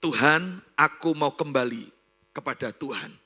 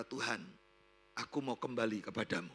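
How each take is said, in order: First: Loud cry out to God, easing at the end; emphatic repentant prayer. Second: Low, soft return to God; subdued repentant prayer. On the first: Repentant woman returns to God, loud emphatic prayer. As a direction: call out "Tuhan" strongly, then settle. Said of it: "dia berkata". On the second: Repentant woman tells God she wants to return, subdued low prayer. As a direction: pray it quietly, humbly. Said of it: "Dan dia berkata". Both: Retold or imitated.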